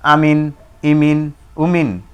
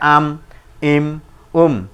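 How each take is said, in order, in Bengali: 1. প্রতিটি অংশ একটি স্বরধ্বনি আর ন দিয়ে শেষ হয়। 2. প্রতিটি অংশ শুধু একটি ব্যঞ্জনধ্বনি দিয়ে শেষ হয়। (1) "না থামিলে যেমন আছে তেমন করে পড়তে হয়" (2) "এটাই আর জি সাকিন"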